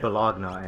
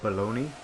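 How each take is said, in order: First: The word ends with a 'nya' sound. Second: The word ends with a 'nee' sound. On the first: The speaker calls it wrong. "when you spell it, it's like it's Bologna. So I said Bologna" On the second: The speaker calls it right. "I didn't know how to pronounce b- balon- baloney"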